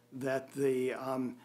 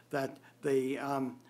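Both takes have the same delivery.

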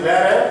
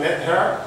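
First: "let her" linked, with no H in "her"; dropped H. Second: "let her" with a clear T and H; pronounced H. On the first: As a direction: run "let her" together American-style, H silent. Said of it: "a disparu". (« let her » lié, sans le H) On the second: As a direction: separate "let" and "her", sounding the H. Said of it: "on n'a pas dit let her". (« let her » avec le T et le H prononcés) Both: Shown as a demonstration.

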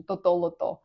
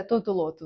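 First: Тото-лото with the stress on the first то; wrong stress тото-лото. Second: Тото-лото stressed the Portuguese way; correct stress тото-лото. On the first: Teacher recalling her childhood mistake, тото-лото stressed wrong. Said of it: "а насправді це тото-лото називається". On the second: Teacher giving the correct Portuguese stress, тото-лото. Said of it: "куди треба поставити наголос". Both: Shown as a demonstration.

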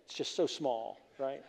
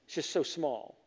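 First: "it's just so small" dropped to a softer voice, falling on "so"; softer repeat. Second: Said in the usual way. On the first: Shown as a demonstration. Preacher quietly repeats to the congregation how small life is. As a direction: let "so small" fade as you repeat it. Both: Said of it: "repeated phrase".

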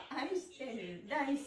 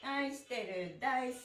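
The two takes are said the same way.

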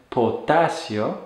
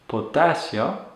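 The two takes are said the same way.

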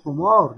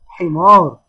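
First: حمار said with an "oo" first vowel; wrong vowel, u. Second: Firm, drawn-out حمار with a kasra, "ḥimār"; correct kasra, i. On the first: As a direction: say حمار as "ḥumār", with u after ح. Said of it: "اوعى واحد يقول حمار". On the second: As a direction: say حمار slowly as "ḥimār", with i after ح. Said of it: "لا، اسمه حمار". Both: Shown as a demonstration.

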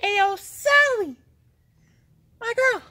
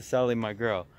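First: Very high, drawn-out holler; calling out. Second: Said in the usual way. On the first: Real, not acted. Vlogger summoning Sally in the tunnel, high hollered call. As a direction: holler it high and slow into the distance.

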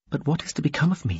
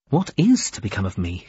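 First: Higher, fast anxious thought; small, quick inward question; quick inner worry. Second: Measured inner question; sober, unhurried wondering. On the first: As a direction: think it hurriedly to yourself. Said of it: "she thought". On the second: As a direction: ponder it in a plain register. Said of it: "she wondered". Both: A narrator's reading.

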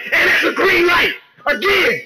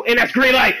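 First: High-pitched celebratory shout; real gamer hype, voice shooting up; so hyped. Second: Said in the usual way. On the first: Real, not acted. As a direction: yell it as the shot drops. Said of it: "sorry for getting so hyped". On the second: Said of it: "getting so hyped".

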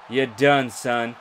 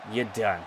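First: Louder, gloating call; loud gloating finish; gloating taunt. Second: Said in the usual way. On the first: Real, not acted. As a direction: rub the win in. Taunting the beaten opponent.

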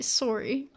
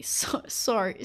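First: SORRY as "sore-ee", Canadian-style, lifting at the end; rounded Canadian first vowel on SORRY, questioning rise. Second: Said in the usual way. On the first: Retold or imitated. Showing viewers how Canadians say it, Canadian SORRY. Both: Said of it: "I think that all Canadians".

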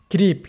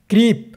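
Both takes have the same delivery.

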